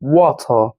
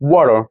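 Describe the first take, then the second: First: It is said in a British accent. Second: It is said in an American accent. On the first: "British में कैसे बोलते हैं?" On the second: "American English में बोलते हैं वाटर"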